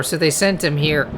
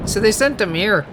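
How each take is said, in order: First: Said in the usual way. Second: Light Cockney, dropping the H in "him"; Cockney twang, "sent 'im here"; Cockney accent. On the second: Shown as a demonstration. Twin explains the madman, in a light Cockney accent. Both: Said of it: "a Cockney accent or something".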